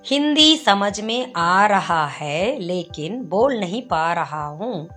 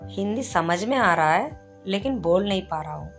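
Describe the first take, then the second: First: Every word is said fully and separately. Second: Words are shortened and run together casually.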